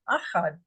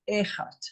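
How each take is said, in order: First: The first vowel is an open 'ah' sound. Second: The first vowel is an 'eh' sound. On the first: The speaker calls it wrong. "not Achad" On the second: The speaker calls it right. "You say Echad. That is an E"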